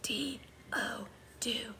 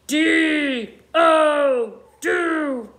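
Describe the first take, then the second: First: It is spoken in a soft whisper. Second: It is spoken in a growling, monstrous voice. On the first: "Now let's whisper spell it" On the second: "like a scary monster"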